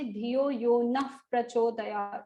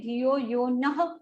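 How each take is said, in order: First: Slow, "Nah" turned to "naf" before "Prachodayat"; correct Nah Prachodayat. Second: Slow, "Nah" said fully as na-ha; wrong Nah. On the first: Teacher modelling the right way, "naf" before "Prachodayat". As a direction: join "Nah" into "Prachodayat" with an f sound. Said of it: "we will say". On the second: Teacher showing the wrong way, "Nah" sounded as na-ha. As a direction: draw out "Dhiyo Yo Nah" with a full ha. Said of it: "we will not say". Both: Shown as a demonstration.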